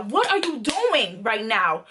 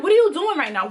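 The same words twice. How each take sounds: First: Slow, pointed "What are you doing", each word weighted; retold heated demand. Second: Higher-pitched, quick outraged question; retold heated demand. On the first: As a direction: repeat it slowly, leaning on "doing". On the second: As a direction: throw the question out high and heated. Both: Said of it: "So I'm really heated".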